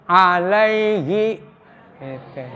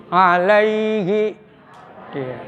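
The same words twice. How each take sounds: Both takes have the same delivery.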